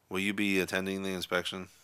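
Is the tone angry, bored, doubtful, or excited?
bored. The question is asked in a bored tone. "a bored, disinterested tone"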